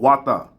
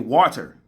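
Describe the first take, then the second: First: The word is pronounced in a regional way. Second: The word is pronounced in a standard way. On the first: This is how someone close to the speaker says it. "She say agua or wata" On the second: This is the standard pronunciation. "she cannot say water"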